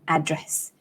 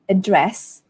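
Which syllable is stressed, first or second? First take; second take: first; second. First: The stress is on the first syllable. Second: The stress is on the second syllable. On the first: "you stress on the first syllable" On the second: "The stress falls on the second syllable"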